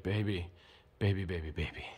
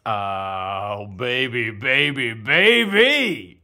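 First: Low, hushed seducer; soft, deep smooth-talker voice. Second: Over-the-top playful wooing; love-potion swoon.

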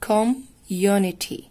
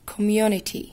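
First: "Community" very slow, broken into com, then unity; split into syllables. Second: Said in the usual way. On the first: Shown as a demonstration. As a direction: break "Community" after the first syllable, drawing out each part. ("Community" ببطء ومتقسمة مقاطع) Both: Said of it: "كلمة طويلة فهنقسمها".

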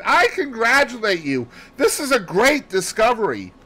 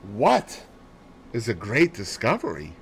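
First: High, loud congratulation; elated, ringing outburst; bursting excitement. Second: Said in the usual way. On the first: A narrator's reading. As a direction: exclaim it as pent-up excitement breaks out. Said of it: "My pent-up excitement burst forth".

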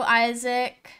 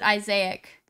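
First: Isaac as EYE-zik, two syllables; first pronunciation. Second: Isaac as eye-ZAY-ik, three syllables; alternative pronunciation. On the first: Streamer greeting a viewer, Isaac said as EYE-zik. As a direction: stress the start of "Isaac", short second syllable. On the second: Streamer unsure of a viewer's name, Isaac said as eye-ZAY-ik. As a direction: stress a long "zay" in the middle of "Isaac". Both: Shown as a demonstration. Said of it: "Or is it Isaac?".

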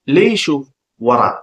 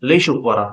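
First: Slow, spaced-out teaching pronunciation; slow demonstration for repeating; slow model. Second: Said in the usual way. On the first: Shown as a demonstration. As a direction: separate the words slowly for learners. Teacher models phrase slowly first.

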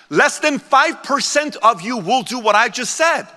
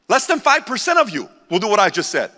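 First: Slow, deliberate, each word weighed; slow warning to the crowd; slow emphatic. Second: Said in the usual way. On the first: Shown as a demonstration. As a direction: lay it out slowly so it sinks in.

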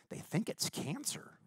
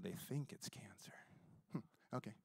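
First: Hushed whisper, pitch up. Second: Very soft whispered echo. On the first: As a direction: say it like grave news. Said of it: "he goes". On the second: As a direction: whisper it back in calm disbelief. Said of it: "I said". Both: Retold or imitated.

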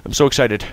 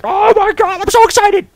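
First: Said in the usual way. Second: Squealing high troll voice, loud; a huge troll squeaking with delight; excited troll. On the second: Pretend. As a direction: play the troll squealing with glee. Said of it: "the troll's gonna, like".

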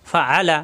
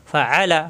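Both takes have the same delivery.

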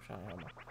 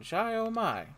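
First: Shy oh my said low and very soft; low muttered repeat. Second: Shy oh my pitched up, a hammed-up character read; higher mock line. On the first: Player repeating the NPC line to himself, low and soft. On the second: NPC party host exclaiming, pitched up and hammed. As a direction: chirp Shy oh my up high in character. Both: Shown as a demonstration.

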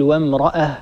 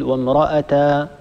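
First: وامرأة ending on a still h; stop on ha. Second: وامرأة slowly drawn out as "wamra-ata"; slow, mistaken وامرأة with a long a at the end; wrong alif ending. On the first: Teacher shows the correct pause on وامرأة. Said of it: "أيضًا نقول". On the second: Teacher shows the wrong pause on وامرأة. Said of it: "ولا نقول". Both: Shown as a demonstration.

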